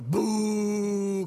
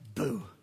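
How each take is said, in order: First: It is said loudly and forcefully. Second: It is said weakly, like a ghost.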